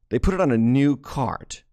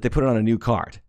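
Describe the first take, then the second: First: "new cart" picked out with deliberate emphasis; emphatic repeat. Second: Said in the usual way. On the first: Shown as a demonstration. Preacher repeating the overlooked detail to the congregation, stressing "new cart". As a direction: lean on "new cart" to drive the point home.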